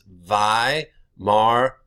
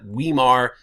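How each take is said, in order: First: The word begins with a V sound. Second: The word begins with a W sound. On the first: The speaker calls it right. "This gets pronounced like a V" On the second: The speaker calls it wrong. "This is not Weimar in German"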